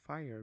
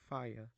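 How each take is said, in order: First: The final r sound is pronounced. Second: The final r sound is dropped.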